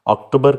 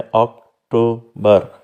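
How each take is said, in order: First: Said in the usual way. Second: October slowly split into three separate syllables. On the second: Shown as a demonstration. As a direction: break October into ok, to, ber with pauses. (अक्टूबर के तीन syllable अलग-अलग, धीरे) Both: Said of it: "इसमें तीन syllable हैं".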